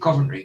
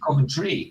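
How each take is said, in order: First: The T sound is dropped or barely heard. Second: The T sound is clearly pronounced.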